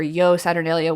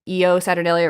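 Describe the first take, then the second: First: The first word is one single syllable. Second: The first word has two separate syllables. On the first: "or one syllable" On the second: "like E O, like as two syllables"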